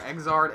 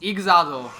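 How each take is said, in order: First: It is pronounced in an English style. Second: It is pronounced in a Japanese style. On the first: "the announcer says it Exard" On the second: "it's Ixado if you're Japanese"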